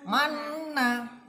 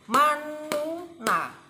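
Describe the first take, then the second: First: The nu syllable is dropped and merged into one. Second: The nu syllable is spoken separately in the middle. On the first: The speaker calls it right. "Dan yang benar itu harus dihilangkan ini. Jadi bacaannya manna" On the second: The speaker calls it wrong. "Uraiannya ini kalau dipisah seperti ini"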